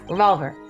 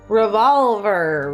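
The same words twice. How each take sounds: First: The word is said very fast. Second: The word is said at a normal speed.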